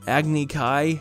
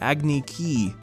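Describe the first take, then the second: First: The term is said the familiar way. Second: The term is said the altered way. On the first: This is how the term is normally said. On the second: This is how the movie says the term.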